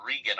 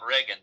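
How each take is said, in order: First: "Regan" with a long EE first syllable; Regan pronunciation. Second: "Reagan" with a RAY first syllable; Reagan pronunciation. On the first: Clarifying the chief of staff's surname, "Regan" said as REE-gun. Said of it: "R E G A N". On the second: Clarifying which politician is meant, "Reagan" said as RAY-gun. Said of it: "not Reagan, but Regan". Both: Shown as a demonstration.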